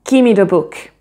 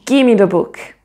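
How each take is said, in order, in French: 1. Le son V disparaît, donnant 'gimme'. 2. Le son V disparaît, donnant 'gimme'.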